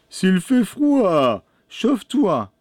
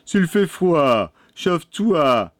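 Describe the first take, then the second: First: Put-on high, drawn-out boy's voice; boy's retort. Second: Put-on moderately high, slow boy's voice; boy's retort. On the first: Pierrot tells the old woman to warm herself, high-pitched retort. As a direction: call it out high and slow. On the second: Pierrot tells the old woman to warm herself, slow raised-pitch retort. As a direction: retort a little higher, stretching the words. Youngest brother answers the witch. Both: A narrator's reading.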